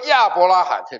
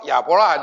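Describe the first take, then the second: First: It is said the mainland Mandarin way. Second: It is said the Taiwanese Mandarin way. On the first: "你们说亚伯拉罕" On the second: "我说亚伯拉罕"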